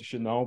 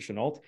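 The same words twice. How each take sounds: First: The name is pronounced with a French sound. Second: The name is pronounced with an American sound. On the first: This is how the name would be said in French. "My French language, like his name should be pronounced Chenault" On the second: This is how the family itself said the name. "His family pronounced it Chenault"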